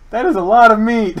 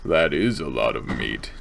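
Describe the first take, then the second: First: High, loud amazement; amazed exclamation. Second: Very low, show-off voice; deep microphone voice. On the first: Real, not acted. Exclaims, then repeats it deep. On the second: Shown as a demonstration. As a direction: drop right down into a deep voice. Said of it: "do good things for my voice".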